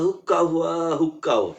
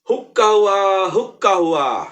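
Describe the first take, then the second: First: The call is said softly. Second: The call is said very loudly. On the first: "একটু আস্তে শিখালেন" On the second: "এবার খুব জোরে বলতে বলেন"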